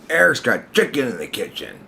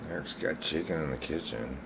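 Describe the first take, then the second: First: It is said in an accusing tone. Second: It is said in a resigned tone.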